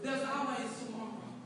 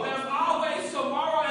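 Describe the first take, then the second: First: Quiet, restrained assurance; soft refrain. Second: Raised, drawn-out assurance; building refrain. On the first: Speaker consoling those who get stumped, soft refrain. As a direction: offer the hope gently first. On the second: Speaker pressing hope on the listeners, building refrain. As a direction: stretch it out and lift it to the crowd. Refrain repeated with more force. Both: Real, not acted.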